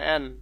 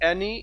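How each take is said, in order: First: The name ends on the 'n' sound. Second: The name ends in an extra 'ee' vowel. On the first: The speaker calls it right. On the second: The speaker calls it wrong. "এখানে অ্যানিও যে উচ্চারণ হবে তা না"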